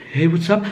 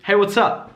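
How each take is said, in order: First: Tentative, rising at UP; mild hesitant imitation of a shy greeting; a little down. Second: A bit higher, direct WHAT'S UP; confident greeting. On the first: Imitating student breaking eye contact, slightly down. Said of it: "whole demeanor is a little down". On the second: Shown as a demonstration. Holding eye contact with a stranger, confident. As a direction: greet squarely, assured. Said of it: "as opposed to".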